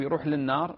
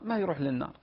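First: يروح للنار asked with a rise on للنار; rising question. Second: ما stressed, falling on ما يروح للنار; firm answer. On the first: Sheikh asks a caller يروح للنار with a rising question. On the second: Sheikh answers his own question, stressing ما. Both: Shown as a demonstration.

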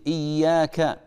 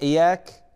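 First: إياك with a doubled, stressed ya; correct shadda. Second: إياك with a single light ya; wrong, no shadda. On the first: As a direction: say إياك as iyyaka, holding the ya. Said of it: "لا بد من تشديد". (إياك بتشديد الياء) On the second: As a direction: say إياك as iyaka, ya not doubled. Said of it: "اللي يقول إي- إياك هذا ما صلى". (إياك بلا تشديد) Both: Shown as a demonstration.

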